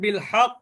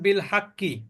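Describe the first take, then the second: First: It stops on the consonant with an echoing bounce. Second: It continues into a final vowel without echo. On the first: The reader stops on the word. "কলকলা কখন হবে? যখন আপনি বলবেন বিল হক।" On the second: The reader does not stop on the word. "যদি পড়েন বিল হাক্কি, তাহলে কিন্তু কলকলা হবে না।"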